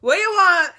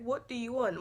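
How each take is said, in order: First: Louder, higher, laughing "What you want?" in patois; harsh patois. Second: Much softer, even, plain "What do you want?"; neutral English. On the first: Daughter shows mum the harsh patois version, loud. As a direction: bark "What you want?" short and sharp, half laughing. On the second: Daughter shows mum the gentle English version, quiet. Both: Shown as a demonstration. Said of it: "it's completely different".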